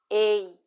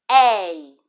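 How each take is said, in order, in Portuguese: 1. O ditongo começa com uma vogal fechada. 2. O ditongo começa com uma vogal aberta. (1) "Ditongo fechado, ei, oi, é mais fechado" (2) "Ei, oi, é mais aberto"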